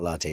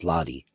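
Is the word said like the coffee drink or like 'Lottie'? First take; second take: coffee drink; Lottie. First: It is said like the coffee drink. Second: It is said like 'Lottie', starting with 'lot'. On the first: The speaker calls it wrong. "latte is not latte" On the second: The speaker calls it right. "it's Lottie. Like lot"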